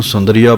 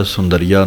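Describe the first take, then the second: First: ਸੁੰਦਰੀਆ as "sundri-aa", light middle syllable; correct reading. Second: ਸੁੰਦਰੀਆ as "sun-dariya", weight on "dar"; wrong reading. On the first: Teacher modelling correct reading, ਸੁੰਦਰੀਆ as "sundri-aa". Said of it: "ਪਾਠ ਹੀ ਪੜ੍ਹਨਾ ਹੈ". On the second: Teacher showing what not to say, ਸੁੰਦਰੀਆ as "sun-dariya". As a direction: stress a full "da" inside ਸੁੰਦਰੀਆ. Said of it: "ਸੁੰਦਰੀਆ ਨਹੀਂ ਕਹਿਣਾ". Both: Shown as a demonstration.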